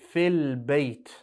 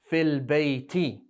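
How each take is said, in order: First: The phrase ends on the bare final consonant. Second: The phrase ends with a short added i vowel. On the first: The sentence stops here. "When you stop at the end of a sentence, you'll say fil bayt" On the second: The sentence continues after this. "if your sentence is going to continue, that kasra is there"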